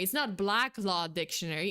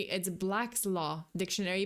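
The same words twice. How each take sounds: First: "Black Law Dictionary" with no s after Black; wrong title, no S. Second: "Black's Law Dictionary" with an s ending Black; corrected title with S. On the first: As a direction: say "Black" bare, running into Law. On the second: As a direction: sound the possessive s in "Black's". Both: Shown as a demonstration.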